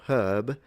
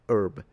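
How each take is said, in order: First: The word begins with an audible h sound. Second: The word begins directly with the vowel. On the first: "the H is fully pronounced" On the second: "it's gone in the American herb"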